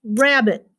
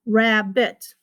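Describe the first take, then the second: First: Said in the usual way. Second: RABBIT as "rab", gap, "bit"; split into syllables. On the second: Shown as a demonstration. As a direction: separate the two beats of "rabbit". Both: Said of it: "that's two".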